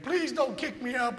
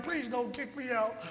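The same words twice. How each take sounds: First: Higher-pitched imitated plea; pleading. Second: Slower, softer repeat of the plea; softer slow pleading. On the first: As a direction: mimic a begging Marine, a bit higher. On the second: Retold or imitated. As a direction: drag out the begging, quieter. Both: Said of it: "he pleaded and begged".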